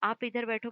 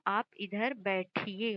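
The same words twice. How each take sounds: First: Said in the usual way. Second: बैठिए drawn out slowly and carefully; slow polite form. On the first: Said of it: "बैठो नहीं होगा". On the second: Shown as a demonstration. Teacher models the correct respectful form slowly for students. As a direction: lay out each word of "आप इधर बैठिए" slowly. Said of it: "क्योंकि आप कह रहे हो, एक इज्जत दे रहे हो".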